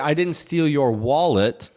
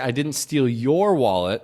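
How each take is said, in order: First: The stress falls on the word wallet. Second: The stress falls on the word your. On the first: Something other than the wallet was taken. "that means I took something else from you" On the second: Another person's wallet was stolen instead. "I stole someone else's wallet"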